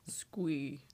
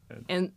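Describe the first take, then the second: First: It is said in a deeper character voice. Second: It is said in a high, female character voice. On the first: "And also deeper voice squee" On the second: "I do female squee"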